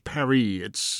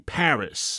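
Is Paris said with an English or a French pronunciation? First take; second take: French; English. First: The city name has a French pronunciation. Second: The city name has an English pronunciation. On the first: This is how locals say it. "and not Paris" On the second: This is how English speakers say it. "we say Paris"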